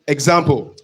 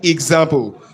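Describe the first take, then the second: First: The word is said in an everyday casual way. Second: The word is said in a careful, precise way. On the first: "you can say it normally example" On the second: "if you want to learn diction... That's the correct pronunciation"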